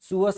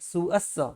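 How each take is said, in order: First: The s consonant is short and single. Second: The s consonant is held long, doubled. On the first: The speaker calls it wrong. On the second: The speaker calls it right.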